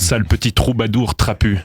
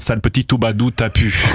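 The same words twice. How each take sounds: First: The R sounds are pronounced normally. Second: The R sounds are left out. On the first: The speaker calls it right. "au lieu de dire" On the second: The speaker calls it wrong. "on devrait arrêter de prononcer les R"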